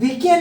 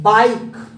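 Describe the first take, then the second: First: It is said as two syllables, bee-keh. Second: It is said as one syllable, rhyming with 'like'. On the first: The speaker calls it wrong. "यह बीके नहीं है साथियों" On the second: The speaker calls it right.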